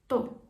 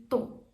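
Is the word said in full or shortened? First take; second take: shortened; shortened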